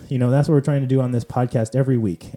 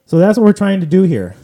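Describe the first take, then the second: First: Said in the usual way. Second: Higher and louder, an eager emphatic push; emphatic summing up. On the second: Real, not acted. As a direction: say it like the big point of the episode. Host sums up podcast purpose.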